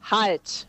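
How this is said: It is said as a firm, resonant command.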